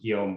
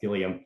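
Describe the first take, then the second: First: The name is pronounced the French way. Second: The name is pronounced the English way. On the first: "which would be the French pronunciation" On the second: "as an anglicization"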